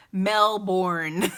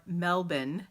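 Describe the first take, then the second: First: "Melbourne" drawn out loud as MEL-BORN; Melbourne with hard R. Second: "Melbourne" said as MEL-bin, R dropped; Melbourne without the R. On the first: Streamer's favorite silly "Melbourne", big R, stretched MEL-BORN. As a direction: hit the R in "Melbourne", slow and loud. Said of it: "my favorite way to say Melbourne". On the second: Streamer showing local "Melbourne", R dropped, second syllable reduced. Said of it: "you aren't supposed to pronounce your R's". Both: Shown as a demonstration.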